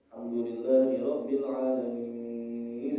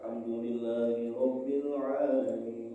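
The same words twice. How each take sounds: First: The vowel in 'alamin' is held long, flowing on. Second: The vowel in 'alamin' is short, flowing on. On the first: The speaker calls it wrong. "jangan sampai nanti dia dia wasol tapi dipanjangkan ... salah ini" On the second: The speaker calls it right. "Tapi kalau Bapak wasol hukumnya jadi mad tabi'i. Dan hanya boleh dibaca dua harokat"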